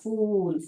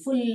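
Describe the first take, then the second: First: The vowel is long, as in 'oo'. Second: The vowel is short, as in 'full'. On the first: The speaker calls it right. "लंबा फूल" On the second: The speaker calls it wrong. "फुल नहीं है"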